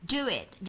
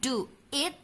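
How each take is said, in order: First: A w sound links the two words together. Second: The words are joined without an added w sound. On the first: The speaker calls it right. "tapi do it" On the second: The speaker calls it wrong. "Jarang sekali native speaker mengucapkan do it"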